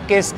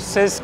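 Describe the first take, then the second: First: The word begins with a k sound. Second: The word begins with an s sound. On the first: "मैं इसको सिस्क और किस्क करके pronounce कर रहा था बहुत टाइम तक" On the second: "मैं इसको सिस्क और किस्क करके प्रोनाउंस कर रहा था बहुत टाइम तक"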